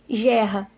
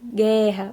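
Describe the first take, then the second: First: The word starts with a soft j sound. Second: The word starts with a hard g sound. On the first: The speaker calls it wrong. "Se botar só o G, vai ficar o quê?" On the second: The speaker calls it right. "o som de G precisa do G com U"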